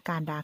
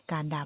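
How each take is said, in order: Both takes have the same delivery.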